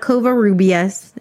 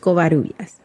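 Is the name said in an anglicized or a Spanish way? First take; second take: anglicized; Spanish. First: The name is said in an anglicized way. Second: The name is said in a Spanish way. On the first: The speaker calls it wrong. "It's not Covarrubias" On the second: The speaker calls it right. "it's Covarrubias"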